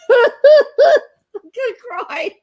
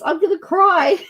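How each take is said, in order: First: Very high, loud, slow laugh-sob through the words; laughing and crying. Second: High, excited, on the edge of tears; choked up. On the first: Host overwhelmed by a hundred likes, laughing through tears. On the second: Host overwhelmed by a hundred likes, near tears. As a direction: say it as the tears start to come. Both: Real, not acted. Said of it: "I am literally crying at the moment".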